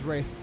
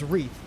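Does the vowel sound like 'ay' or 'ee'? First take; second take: ay; ee. First: The vowel sounds like 'ay'. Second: The vowel sounds like 'ee'. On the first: The speaker calls it wrong. "I've always just pronounced it as wraith" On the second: The speaker calls it right. "I think it's actually pronounced wreath"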